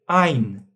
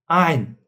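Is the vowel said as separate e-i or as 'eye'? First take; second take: eye; eye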